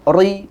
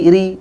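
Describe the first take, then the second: First: The r is heavy and thick. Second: The r is light and thin. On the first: The speaker calls it wrong. "jadi tebal" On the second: The speaker calls it right.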